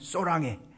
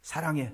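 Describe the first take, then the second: First: The first vowel is an 'o' sound. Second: The first vowel is a plain 'a' sound.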